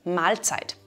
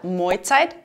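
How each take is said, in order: First: The L is clearly pronounced after the vowel. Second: The L is replaced by an oi vowel.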